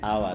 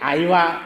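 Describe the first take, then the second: First: The word is said as two syllables, aa-va. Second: The word is said with an ee sound, aa-ee-va. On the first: This is how the speaker's own Lajpur people say it. "हम लोग बोलते हैं आवा" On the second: This is how the Alipur people say it. "Alipur चले जाए तो कि आईवा"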